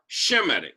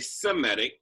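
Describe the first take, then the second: First: The word begins with an 'sh' sound. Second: The word begins with a plain 's' sound. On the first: The speaker calls it right. "it was S H, like Shem. So we say we are Shemitic" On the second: The speaker calls it wrong. "we don't say Semitic because Noah's son wasn't named Sem"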